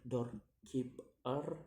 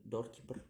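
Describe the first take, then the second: First: "doorkeeper" slowly in three beats, rising at the end; syllable by syllable. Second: Said in the usual way. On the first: Shown as a demonstration. Teacher demonstrating syllables, "doorkeeper" slow and split. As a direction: break "doorkeeper" apart with pauses. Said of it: "three syllables to say". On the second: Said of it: "the ending er".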